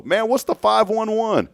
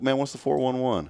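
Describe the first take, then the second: First: High, loud playful slang riff; slang greeting voice. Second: Casual street slang, lightly voiced; slang greeting voice. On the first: Retold or imitated. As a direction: toss it off like a catchphrase. Riffing the slang phrase. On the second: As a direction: toss it off like old-school slang. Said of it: "Didn't people used to say that?".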